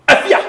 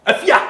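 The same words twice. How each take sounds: First: Said in the usual way. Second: Higher, louder call across the room. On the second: Acted. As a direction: call her name to get her attention. Calling out a woman's name.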